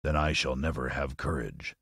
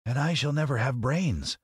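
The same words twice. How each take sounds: First: Low, softer lion voice; storybook Lion. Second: High-pitched scarecrow voice. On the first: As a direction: declare it low as a discouraged Lion. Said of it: "declared the Lion". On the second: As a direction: lament in a high character voice. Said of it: "added the Scarecrow". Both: Acted.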